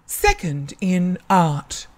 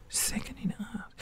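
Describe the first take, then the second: First: Slow, measured award announcement; lightly voiced ceremony announcer, words spaced out; announcer reading results. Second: Voiceless, very soft disbelief; stunned whisper. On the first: School announcer reading out an award, slow and measured. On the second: Retold or imitated. Student repeating their own award in disbelief, stunned whisper. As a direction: whisper it back, acting amazed.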